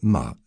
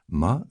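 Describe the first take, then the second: First: The pitch falls sharply from high to low. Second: The pitch rises from middle to high. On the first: It means to scold. "la tonalité descendante" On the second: It means hemp. "la tonalité montante"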